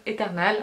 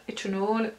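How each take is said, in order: First: Eternal as "é-ter-nal", French r and clear "a"; French pronunciation. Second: Eternal as "et-nol", dark final vowel; English-style pronunciation. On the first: Vlogger trying out shade name, Eternal French-style "é-tèr-nal". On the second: Vlogger trying out shade name, Eternal English-style "et-nol". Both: Shown as a demonstration. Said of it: "on a Eternal ou Eternal".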